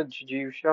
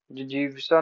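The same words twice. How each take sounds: First: Said in the usual way. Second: जिजीविषा ending in 'sa'. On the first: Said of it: "होता है". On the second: Shown as a demonstration. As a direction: say जिजीविषा as 'jijivisa'. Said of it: "नहीं होता".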